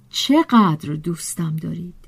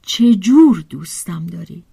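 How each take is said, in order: First: چقدر stressed, hushed and low; stress on how much. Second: The question turns on the word جور; stress on how. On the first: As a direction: lean lightly on چقدر, then let the line fall away. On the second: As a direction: press on جور to set it against چقدر. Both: Acted. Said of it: "میپرسم".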